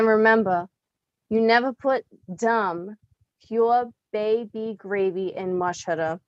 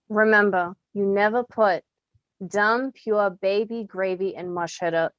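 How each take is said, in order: First: There is a pause after "dumb". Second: The words after "dumb" run together without pause.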